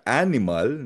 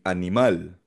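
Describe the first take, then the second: First: The stress is on the first syllable. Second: The stress is on the last syllable. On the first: The speaker calls it wrong. "hindi siya animal na parang sa English" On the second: The speaker calls it right. "nasa dulo ang diin"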